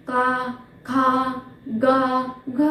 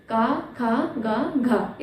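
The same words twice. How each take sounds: First: का, खा, गा, घ pulled apart with long pauses between each syllable; wrong way to say it. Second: Said in the usual way. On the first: Shown as a demonstration. Teacher showing students the wrong way, halting syllables. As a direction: say का, खा, गा, घ as separate halting sounds. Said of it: "ऐसे तो नहीं बोलेंगे ना?". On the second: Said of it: "ऐसे बोलेंगे ना?".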